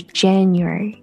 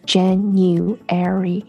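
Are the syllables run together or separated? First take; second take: run together; separated. First: It is said quickly, syllables joined smoothly. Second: It is said slowly, syllable by syllable. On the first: "连在一起的时候是January" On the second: "你特别慢把这几个音讲出来一次 / 四个音"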